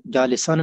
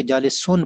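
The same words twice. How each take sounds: First: जालिसन ending in a short "-an"; wrong ending, -an. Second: जालिसुन ending in a clear "-un"; correct ending, -un. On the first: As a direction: say जालिसन with an a-vowel on the last syllable. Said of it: "जालिसन नहीं बल्कि जालिसुन पढ़ना है". (जालिसन, आखिर में ज़बर की "अन" आवाज़) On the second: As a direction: say जालिसुन with a u-vowel on the last syllable. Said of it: "बल्कि जालिसुन पढ़ना है". (जालिसुन, आखिर में पेश की "उन" आवाज़) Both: Shown as a demonstration.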